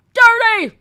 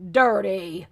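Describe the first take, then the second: First: High, loud shouted Dirty!; mock outraged cry of Dirty!. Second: Said in the usual way. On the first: Shown as a demonstration.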